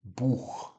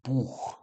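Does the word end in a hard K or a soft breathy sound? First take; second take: soft breathy; soft breathy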